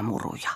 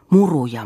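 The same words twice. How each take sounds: First: Much softer, falling away to almost nothing; a hushed, fading repeat of "muruja"; fading echo. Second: Said in the usual way. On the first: Acted. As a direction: let the repeat die out like an echo. Repeated word, second fades.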